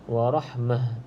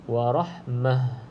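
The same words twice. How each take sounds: No difference in how they are said.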